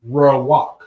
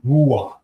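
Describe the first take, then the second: First: The first vowel sounds like 'ah'. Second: The first vowel sounds like 'oo'. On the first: It is read from the consonants alone, without vowel marks. "You see how we say the word is what?" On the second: It is read with the vowel marks applied. "your rules are ruach, right, as opposed to rawak"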